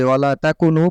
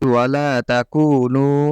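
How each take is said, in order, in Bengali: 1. দীর্ঘ স্বরগুলোকে ছোট করে পড়া হয়। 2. দীর্ঘ স্বরগুলোকে পুরোপুরি টেনে পড়তে হবে। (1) "কোনোভাবে ওয়ালা তাকুনু পড়া যাবে না" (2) "এই মাদগুলো আপনাকে আদায় করতে হবে"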